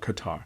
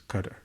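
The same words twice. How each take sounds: First: Qatar is said the way outsiders commonly say it. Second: Qatar is said the way local residents say it. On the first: "Some of you call it Qatar" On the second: "I've heard the residents there pronounce it as Qatar"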